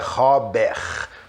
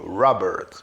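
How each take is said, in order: First: The R sounds like a Brazilian Portuguese R. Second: The R is made with the tongue curled back. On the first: The speaker calls it wrong. "Não é Robert" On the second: The speaker calls it right. "aquele T de nada, bem curtinho"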